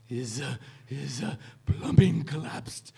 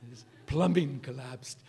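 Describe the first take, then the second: First: Stammering professor voice, rising on the punchline; hesitate, then burst out the punchline in a put-on voice; Kubler impression. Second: Said in the usual way. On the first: Retelling the professor's answer about a sick friend, halting imitation. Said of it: "gotta get my Kubler voice back".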